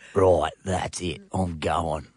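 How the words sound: It is said in a huskier voice.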